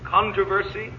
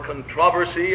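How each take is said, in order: First: It is said in the speaker's usual non-British way. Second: It is said the way British speakers say it.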